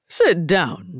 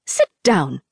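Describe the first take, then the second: First: Said in the usual way. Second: Stern order. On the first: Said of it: "said Uncle Fang". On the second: A narrator's reading. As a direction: command it with a sharp bite. Auntie Fang orders Rin.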